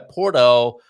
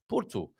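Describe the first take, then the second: First: Porto is said in an American style. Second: Porto is said in the local, non-American style. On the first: The speaker calls it wrong. "is probably a bit of an Americanism" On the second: The speaker calls it right. "I think, is the correct pronunciation"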